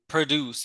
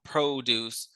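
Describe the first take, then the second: First: The first syllable is a weak 'pra'. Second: The first syllable is a full 'pro'. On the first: The speaker calls it right. "pra and not pro" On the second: The speaker calls it wrong. "and not"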